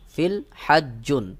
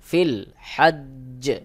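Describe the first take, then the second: First: The word ends smoothly with an 'un' ending. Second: The final j is held longer and echoes. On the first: The reading continues without stopping. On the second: The reader stops at this word.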